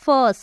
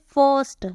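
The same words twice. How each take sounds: First: फर्स्ट louder and clipped short, with an अ vowel; फर्स्ट punched short and loud; emphatic first. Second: फर्स्ट said firmly for the class; pronounce first. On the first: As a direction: stamp out फर्स्ट once more for the class. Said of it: "क्या बोलते हो". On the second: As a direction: model फर्स्ट with a clear अ sound. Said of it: "तो क्या बोलते हैं". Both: Shown as a demonstration.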